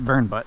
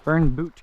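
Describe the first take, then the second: First: The last syllable sounds like 'butt'. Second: The last syllable sounds like 'boot'. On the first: This is a joking personal version. "I pronounce it Burnbutt" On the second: This is the official name. "is called Burnboot Creek"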